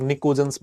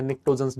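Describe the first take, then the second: First: "निकोजेंस" said without a t, ni-ko-jens; common variant pronunciation. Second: "निक्टोजेंस" with the t sounded, nik-to-jens; alternative pronunciation. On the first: Teacher showing students the variant many people say, "निकोजेंस" with no t. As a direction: say "निकोजेंस" with a plain k in the middle. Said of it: "बहुत सारे लोग निकोजेंस बोलते हैं". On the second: Teacher offering students the other option, "निक्टोजेंस" with the t pronounced. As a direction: say "निक्टोजेंस" with a clear kt cluster and silent P. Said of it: "जो आपको ठीक लगे". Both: Shown as a demonstration.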